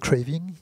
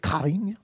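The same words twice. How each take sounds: First: The word is pronounced with English sounds. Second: The word is pronounced with French sounds. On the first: "C'est quand même un mot anglais au départ" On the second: "mot français"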